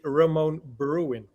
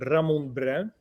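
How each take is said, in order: First: The name is said with an English accent. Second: The name is said with a Dutch accent.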